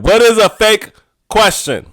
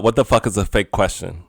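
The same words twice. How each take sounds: First: Emphatic. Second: Said in the usual way. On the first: Shown as a demonstration. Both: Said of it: "I gotta say it like that".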